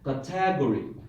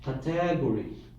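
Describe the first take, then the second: First: The stress is on the second syllable. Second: The same.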